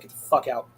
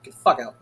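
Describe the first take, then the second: First: Said in the usual way. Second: Louder second go at the same line; louder repeat. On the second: Shown as a demonstration. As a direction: push it harder the second time. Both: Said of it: "repeated louder".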